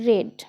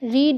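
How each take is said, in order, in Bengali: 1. স্বরধ্বনিটি ছোট, 'bed'-এর সঙ্গে মেলে। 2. স্বরধ্বনিটি লম্বা, 'seed'-এর সঙ্গে মেলে। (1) "এটার উচ্চারণ ভি থ্রিতে কিন্তু রেড" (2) "রিড নয়"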